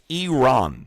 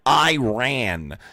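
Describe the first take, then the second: First: The word does not sound like 'I ran'. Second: The word sounds like the phrase 'I ran'. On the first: The speaker calls it right. "It's Iran" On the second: The speaker calls it wrong. "not Iran. ... I ran down the street is not how you pronounce it"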